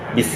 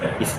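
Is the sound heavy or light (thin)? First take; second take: light; light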